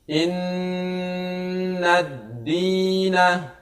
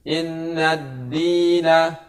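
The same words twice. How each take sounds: First: The doubled n is held with a long nasal hum. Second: The doubled n is said quickly without a hum. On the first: The speaker calls it right. "maka kita harus membaca dengan dengung atau ditahan, digunakan sebanyak dua ketukan" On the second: The speaker calls it wrong. "Jangan membaca tidak dengan menggunakan, yaitu membaca terlalu cepat"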